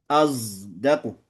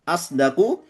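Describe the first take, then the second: First: The consonant before d is a z sound. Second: The consonant before d is an s sound.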